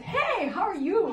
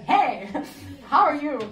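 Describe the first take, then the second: First: High, slow, giggly greeting; laughing hello. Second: Loud greeting broken by a laugh; laughing hello. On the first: To the great swami, a laughing casual hello. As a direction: toss off a cheeky hello through a laugh. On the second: Retelling the cheeky hello to the swami, laughing. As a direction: blurt it out and crack up midway. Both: Retold or imitated.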